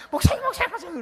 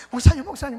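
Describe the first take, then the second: First: Much higher, louder urgent calls; the evangelist rings again, high and breathless with excitement; excited calling. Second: Loud, frantic calls of the pastor's title; a late-night phone call, shouted in alarm; urgent calling out. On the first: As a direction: shout for the pastor, bursting with news. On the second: Evangelist calling pastor at midnight. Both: Retold or imitated.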